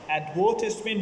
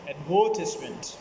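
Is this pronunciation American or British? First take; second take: British; British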